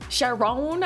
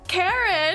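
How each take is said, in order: First: The name begins with a soft sh sound. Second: The name begins with a hard k sound.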